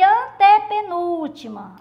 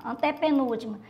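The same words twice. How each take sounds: First: "antepenúltima" drawn out with strong "ante" and "núl"; emphatic counting. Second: Said in the usual way. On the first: Shown as a demonstration. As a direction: spell out "antepenúltima" slowly for the class. ("antepenúltima" devagar e bem marcado) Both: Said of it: "Aí vocês contam".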